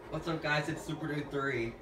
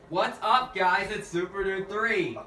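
First: It is said fairly quietly. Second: It is said loudly.

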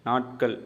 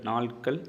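The two takes are said the same way.

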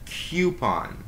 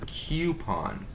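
First: A y sound follows the first consonant. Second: No y sound follows the first consonant. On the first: The speaker calls it wrong. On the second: The speaker calls it right.

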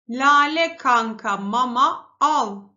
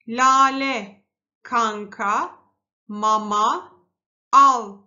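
First: The words are read quickly, as one unit. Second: The words are read slowly, one by one. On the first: "birazcık daha hızlı okuyalım" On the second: "Şimdi yavaş okuduk"

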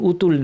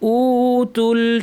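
First: The first vowel is short, not stretched. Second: The first vowel is stretched out long. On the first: The speaker calls it wrong. "না টেনে উতুল বলে ফেলেন" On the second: The speaker calls it right. "টানটা খেয়াল করতে হবে"

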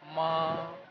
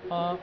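First: The pitch stays high and level. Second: The syllable is short and light, unstressed. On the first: It means mother. "Number one tone, which is straight" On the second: It marks a question. "neutral tone, sound is light"

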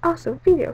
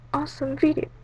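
First: It is said with excited, lively energy. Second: It is said in a flat, plain way.

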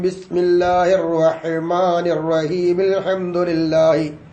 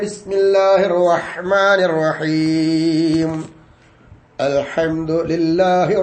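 First: Both phrases run together in one breath. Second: A pause comes before the second phrase starts. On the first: "ഒറ്റ ശ്വാസത്തിൽ മുറിക്കാതെ" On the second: "നമ്മൾ പോതാറെങ്ങനെ?"

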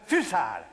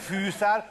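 First: The first vowel is kept short. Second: The first vowel is held long. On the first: The speaker calls it right. "rövid az ű" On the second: The speaker calls it wrong. "Tehát nem fűszál"

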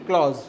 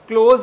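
First: The vowel sounds like 'aw', as in cause. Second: The vowel sounds like 'oh', as in close. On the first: The speaker calls it right. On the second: The speaker calls it wrong. "क्लोज नहीं"

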